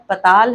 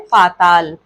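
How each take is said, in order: First: The first vowel is short. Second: The first vowel is long. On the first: The speaker calls it wrong. "अशुद्ध" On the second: The speaker calls it right. "शुद्ध है"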